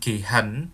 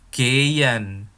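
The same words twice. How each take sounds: First: The middle h is pronounced aloud. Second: The middle h is silent. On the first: The speaker calls it wrong. "bukan gehen" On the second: The speaker calls it right. "Karena H di tengah itu nggak dilafalkan ya"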